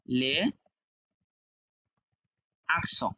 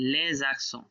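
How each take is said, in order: First: "লে", long pause, then "আকসো" with no z; unlinked, word by word. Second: "লে জাকসো" joined, z sound starting the second word; linked with z. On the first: Teacher showing the written form, "লে ... আকসো" separately. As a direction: keep "লে" and "আকসো" apart, vowel-initial second word. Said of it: "আকসো ছিল কিন্তু আমি বললাম". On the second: Teacher demonstrating liaison, "লে জাকসো" linked as one word. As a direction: run "লে" into "জাকসো" with a buzzing z link. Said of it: "আমি বললাম জাকসো". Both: Shown as a demonstration.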